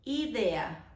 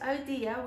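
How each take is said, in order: First: The word is said with Spanish vowels. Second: The word is said with English vowels. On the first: The speaker calls it right. "we pronounce idea" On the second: The speaker calls it wrong. "we don't pronounce idea"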